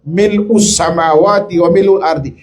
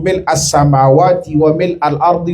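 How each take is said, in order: First: The vowel after mil' is u. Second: The vowel after mil' is a. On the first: The speaker calls it wrong. "Yang umum dibaca di kita itu hanya redaksi yang keliru" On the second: The speaker calls it right. "Yang betul adalah mil'ah"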